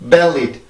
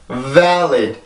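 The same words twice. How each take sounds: First: The first vowel is very short and narrow. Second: The first vowel is long with mouth wide open. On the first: The speaker calls it wrong. "요 발음은 아주 짧게 에 라고 하는 발음이고" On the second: The speaker calls it right. "혀가 눌리고 입이 많이 열리는 에, 긴 소리"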